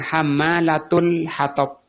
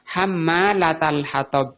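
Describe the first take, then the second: First: The first word ends in a 'u' vowel. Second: The first word ends in an 'a' vowel. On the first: "Juga boleh dibaca dhammah" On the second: "Taknya ini di fathah"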